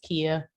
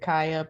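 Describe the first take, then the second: First: The first vowel sounds like 'ee'. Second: The first vowel sounds like 'eye'. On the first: The speaker calls it right. "but it's Kia" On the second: The speaker calls it wrong. "people usually pronounce it Kaya"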